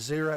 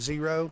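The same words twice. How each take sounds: First: It is said in a rural backwoods accent. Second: It is said in a standard accent. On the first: "I like to call it a zero ... talk like I'm from the backwoods" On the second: "instead of zero"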